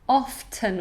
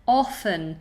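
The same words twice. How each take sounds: First: The T sound in the middle is pronounced. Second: The T sound in the middle is silent.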